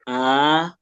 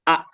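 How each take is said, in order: First: The vowel is long and flows out smoothly. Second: The vowel is short and cut off sharply. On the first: "Yang ini, yang kedua ini, dia ngalir aja" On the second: "Kalau sebelumnya kan dia disentak ya"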